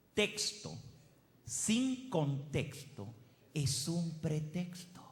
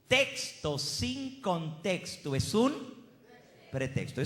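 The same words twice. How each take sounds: First: Slow, measured saying with pauses; máxima pausada. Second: Slow, raised TEXTO, pause before PRETEXTO; máxima enfática. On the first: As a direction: spell out the maxim slowly, phrase by phrase. Presenta la máxima con pausas. (máxima dicha despacio y con pausas) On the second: La repite con más fuerza. (TEXTO enfático y agudo, pausa antes de PRETEXTO) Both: Real, not acted.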